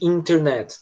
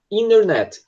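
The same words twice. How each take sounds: First: "internet" with the first T clearly pronounced; fully sounded T. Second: "internet" as "innernet", no T after the N; American swallowed T. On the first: Teacher contrasting with American form, "internet" with T sounded. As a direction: keep the T after the N in "internet". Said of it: "em vez de". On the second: Teacher demonstrating American English "internet", T swallowed. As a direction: drop the first T in "internet". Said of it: "Eles engolem esse som de T". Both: Shown as a demonstration.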